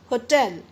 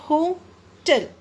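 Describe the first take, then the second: First: Said in the usual way. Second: "होटल" with a pause between "हो" and "टल"; split into syllables. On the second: Shown as a demonstration. Teacher showing the break in the middle, "होटल" in two syllables. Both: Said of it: "एक break आ जाता है बीच में".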